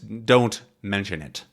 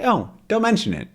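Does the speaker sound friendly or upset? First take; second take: upset; friendly. First: It is said in an upset, annoyed way. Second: It is said in a friendly, easygoing way.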